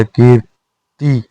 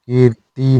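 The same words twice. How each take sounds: First: कीर्ति very slow with clear r; correct form. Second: कीर्ति with weak r; incorrect form. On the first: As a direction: break कीर्ति into "keer-ti". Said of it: "होता है". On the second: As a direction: say कीर्ति as "keeti". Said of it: "नहीं होता". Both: Shown as a demonstration.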